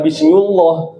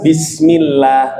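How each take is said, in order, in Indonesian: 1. Bunyi L pada Allah terdengar tebal dan penuh. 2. Bunyi L pada Allah terdengar tipis dan ringan. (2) "Kalau yang kedua tarkik tipis. Contohnya apa?"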